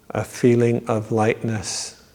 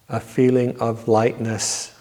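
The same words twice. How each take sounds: The two takes are said the same way.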